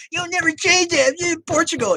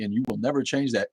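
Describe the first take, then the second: First: Much higher, louder sneering parody; mocking voice. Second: Said in the usual way. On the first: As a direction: squeak it back in a taunting parody. Mocking the viewer's comment.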